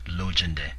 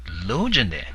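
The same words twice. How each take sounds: First: The first syllable has a long level tone. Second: The first syllable has a raised tone. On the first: The speaker calls it right. "pronounced with a long, level, sustained tone" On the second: The speaker calls it wrong. "raise your voice as if it is written with two dots"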